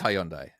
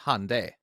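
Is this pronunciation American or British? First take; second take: British; American. First: It is said with the British pronunciation. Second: It is said with the American pronunciation. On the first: "It is Hyundai" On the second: "they pronounce it Hyundai"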